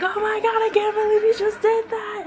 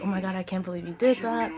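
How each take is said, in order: First: Very high, loud squeal; excited mock shriek. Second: Said in the usual way. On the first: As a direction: hype her up like shrieking friends. Imitating friends hyping her up.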